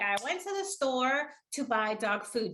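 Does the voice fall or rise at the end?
fall. The voice falls at the end like a statement. It sounds like the speaker is stating a fact. "Michelle didn't do that"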